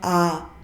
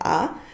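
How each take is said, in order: First: The vowel is held for longer. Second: The vowel is held briefly. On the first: "ada yang panjang" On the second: "ada yang pendek"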